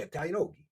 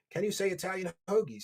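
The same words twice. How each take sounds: First: South Philly accent. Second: Said in the usual way. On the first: Shown as a demonstration. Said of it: "South Philly accents".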